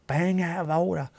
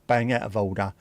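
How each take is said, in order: First: Higher-pitched, exaggerated repeat; mock outrage. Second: Said in the usual way. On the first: Complaining that Wales has too many beautiful places, mock outraged. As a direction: ham up the indignation in a put-on voice.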